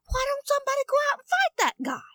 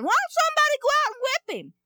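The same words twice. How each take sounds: First: Put-on high, fast boyish voice; eager young boy asking around; piping young boy's question; young David. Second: Put-on high, fast boyish voice; eager young boy urging someone on; piping boy's indignant question; young David. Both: Boy David asks the soldiers.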